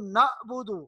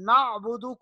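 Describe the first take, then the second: First: The middle consonant is a plain glottal stop. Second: The middle consonant is a throaty pharyngeal sound. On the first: The speaker calls it wrong. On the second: The speaker calls it right.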